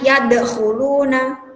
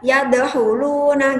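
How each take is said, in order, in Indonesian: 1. Bunyi kh-nya kuat dan serak dari tenggorokan. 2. Bunyi kh-nya lemah dan terdengar seperti h. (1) "Seharusnya kan" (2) "Huruf kha kadang itu terdengar menjadi huruf ha"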